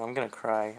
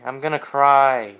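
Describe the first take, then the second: First: Said in the usual way. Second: Much louder, wailing; half-joking loud wail. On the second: Real, not acted. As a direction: let the "cry" burst out in a wail.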